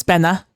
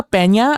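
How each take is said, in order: First: Pena said as "PEN-a"; plain N in Pena, no "ny"; pronounced without ñ. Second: Peña said as "PEN-ya"; Peña with a Spanish ny sound; pronounced with ñ. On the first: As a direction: say Pena with a simple n sound. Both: Shown as a demonstration. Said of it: "no ñ".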